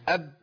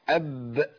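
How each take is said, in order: First: The final b is held shut without release. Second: The final b is released with a slight bounce. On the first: The speaker calls it wrong. "مفيش" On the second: The speaker calls it right. "صح، لازم هزه بسيطه كده"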